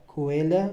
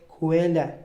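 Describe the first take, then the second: Both takes have the same delivery.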